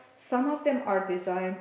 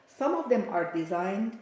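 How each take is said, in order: Both takes have the same delivery.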